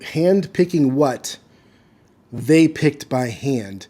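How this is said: There is a pause after "what". Each line is read as a separate unit. The speaker calls it wrong. "you wouldn't read ... as if you're reading each line individually"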